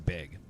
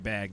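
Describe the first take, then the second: First: The vowel is raised, sounding like beg. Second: The vowel is the open 'a' of bag. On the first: "they say beg" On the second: "I know people who don't say bag"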